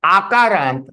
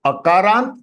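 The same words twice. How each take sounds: First: Akarant opening on a long "aah"; long initial vowel. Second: Akarant opening on a brief "uh"; short initial vowel. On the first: Teacher sums up for students, Akarant with long first vowel. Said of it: "this is Akarant". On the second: Teacher sums up for students, Akarant with short first vowel. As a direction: say Akarant as "uh-kaarant". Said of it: "Ka is Akarant". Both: Shown as a demonstration.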